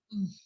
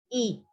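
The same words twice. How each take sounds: First: A raised tongue gives the i audible friction. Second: A plain open i vowel with free airflow. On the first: "Y ahora hago yode" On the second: "La primera es la I normal"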